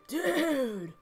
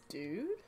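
First: It sounds angry. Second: It sounds confused.

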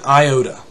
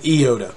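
First: The first vowel is not an 'ee' sound. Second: The first vowel is an 'ee' sound. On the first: The speaker calls it wrong. "You said it's an iota" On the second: The speaker calls it right. "much like the proper E sound in English"

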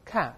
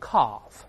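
First: The vowel is a short flat 'a' sound. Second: The vowel is a long 'ar'-like sound. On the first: "再来一遍calf" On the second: "英国人读成calf，发R 的声音"

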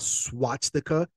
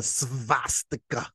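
First: The word begins with an S-W sound. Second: The word begins with an S-V sound. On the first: The speaker calls it wrong. "That's not a swastika" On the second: The speaker calls it right. "That's a svastika"

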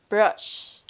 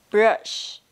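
No difference in how they are said.

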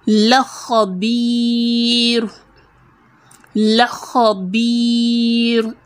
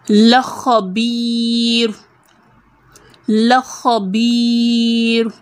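No difference in how they are said.

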